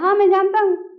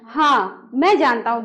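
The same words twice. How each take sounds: First: It runs straight on with no pause. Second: There is a short pause after the first word. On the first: The speaker calls it wrong. "ऐसे नहीं बोलना है" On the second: The speaker calls it right. "बीच में थोड़ा सा क्या करना है, विराम लेना है"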